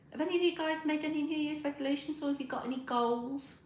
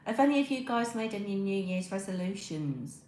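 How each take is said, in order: First: "Have any of you guys made any New Year's resolutions" asked again higher and faster; higher, quicker repeat of the question. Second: Said in the usual way. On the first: Shown as a demonstration. To her live chat, asking again higher and faster. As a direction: pitch it up and speed through the repeat.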